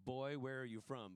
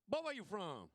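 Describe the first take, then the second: First: Said in the usual way. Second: Put-on Boy, where you from? run together as one word, higher and louder. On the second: Shown as a demonstration. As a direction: slur it into one Southern word. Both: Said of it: "it's one word".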